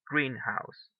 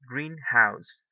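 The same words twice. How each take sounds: First: The stress falls on the first syllable only. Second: Both words carry equal stress. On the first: A glass building for growing plants. "The stress is in the first syllable" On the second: A house that is green. "It maintains the stress in both words"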